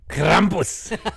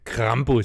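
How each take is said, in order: First: It is said in an angry tone. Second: It is said in a plain, neutral tone.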